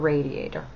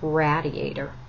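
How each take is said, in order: First: It is the speaker's own usual pronunciation. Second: It imitates her husband's maybe New York pronunciation.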